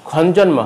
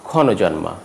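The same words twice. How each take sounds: First: ক্ষণজন্মা with n running into j; no linking vowel. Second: ক্ষণজন্মা with "o" after first n; ক্ষণজন্মা in four syllables; linking vowel sounded. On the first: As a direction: say ক্ষণজন্মা as "khawn-jawnma". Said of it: "হবে না". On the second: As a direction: say ক্ষণজন্মা as "khawno-jawnma". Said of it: "উচ্চারণ হবে". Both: Shown as a demonstration.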